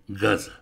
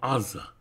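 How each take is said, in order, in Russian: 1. Слово начинается со звука «г». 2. Слово начинается с гласного, без «г». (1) "а не «газа»" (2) "на современном иврите сектор «газа» мы называем сектором «аза»"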